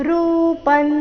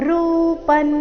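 No difference in how they are said.

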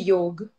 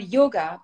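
First: The word ends on the consonant g. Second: The word ends with an added vowel sound. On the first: This is how it is said in North India. "if you're in North India, you will hear" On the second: This is how it is said in South India. "You'd also hear"

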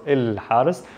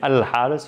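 First: The word begins with an 'il' sound. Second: The word begins with an 'al' sound. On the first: This form is more typical of spoken dialect. "and then il more in Amiya" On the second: This form is more typical of Modern Standard Arabic. "Al is used a little bit more in Fusha or MSA"

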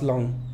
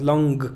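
First: It ends with no audible g sound. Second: It ends with an audible g sound. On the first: The speaker calls it right. "nada más long" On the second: The speaker calls it wrong. "no digas long"

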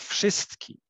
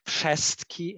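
First: The stressed vowel is not lowered. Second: The stressed vowel is lowered toward e. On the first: This is the standard form. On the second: This is the borderland dialect form.

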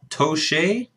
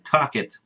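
First: The surname is given a fancy, unusual pronunciation. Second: The surname is given a plain, ordinary pronunciation. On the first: The speaker calls it wrong. "I'm not sure if I pronounced that correctly" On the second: The speaker calls it right. "just like I wanted to say it originally"

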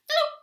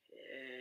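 First: It is said quickly. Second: It is said slowly.

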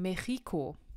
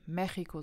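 First: The stress is on the second syllable. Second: The stress is on the first syllable. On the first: The speaker calls it wrong. "die vorletzte Silbe wäre hier ja das X I. Also müssten wir eigentlich sagen Mexiko. Sagt aber keiner" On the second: The speaker calls it right. "kommt hier ein Akzent auf das E, damit man eben Mexiko sagt"

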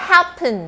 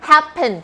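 The two takes are said the same way.

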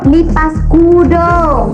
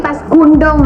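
First: The second word has no added n sound. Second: The second word has an added n sound. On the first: The speaker calls it right. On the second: The speaker calls it wrong. "Bukan lipas kundong lah"

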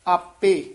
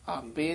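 First: The final vowel is pronounced fully. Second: The final vowel is clipped off short. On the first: The speaker calls it right. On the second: The speaker calls it wrong.

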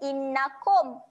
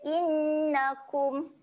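First: The final sukun sound is not pronounced clearly. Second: The final sukun sound is pronounced clearly. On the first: The speaker calls it wrong. "Bukan innakum. Ha, innakum salah" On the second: The speaker calls it right. "Dia innakum"

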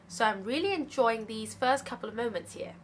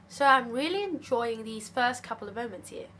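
No difference in how they are said.

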